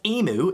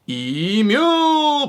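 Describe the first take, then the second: First: It is pronounced the non-Australian way. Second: It is pronounced the Australian way. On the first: The speaker calls it wrong. "why would you pronounce this animal as emu" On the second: The speaker calls it right. "pronounced correctly in Australia as emu"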